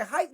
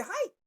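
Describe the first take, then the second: First: A firm, raised snap call of hike; "Hike" barked firmly. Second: "Hike" jumps way up into a cracked squeak; a mocked, much higher "Hike"; squeaky hike. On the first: Retold or imitated. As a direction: call "Hike" out like a quarterback at the line. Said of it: "Every time I say". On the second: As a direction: let "Hike" squeak out high and helpless. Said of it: "I can't even say".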